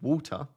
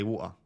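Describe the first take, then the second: First: The middle T is clearly pronounced. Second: The middle T is dropped. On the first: "rather than saying water" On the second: "I'll say water... sometimes I'll lose my T's"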